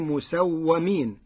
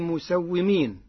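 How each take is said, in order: First: The vowel after the 'w' is 'a'. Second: The vowel after the 'w' is 'i'. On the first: The angels were marked by God. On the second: The angels are the ones who mark.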